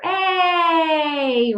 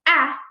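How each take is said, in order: First: The vowel is the long A, drawn out. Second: The vowel is the short A, cut off quickly. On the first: "we call that a long sound because it can go on and on and on" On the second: "it's kind of short, isn't it? It's a short vowel sound"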